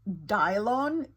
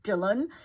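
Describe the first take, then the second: First: The second syllable is said like 'lon'. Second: The second syllable is said like 'lan'. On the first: The speaker calls it wrong. "he pronounced the name as Dylon" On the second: The speaker calls it right. "instead of Dylan"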